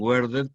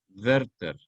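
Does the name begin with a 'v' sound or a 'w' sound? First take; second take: w; v. First: It begins with a rounded English 'w' sound. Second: It begins with a lip-teeth 'v' sound. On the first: The speaker calls it wrong. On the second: The speaker calls it right.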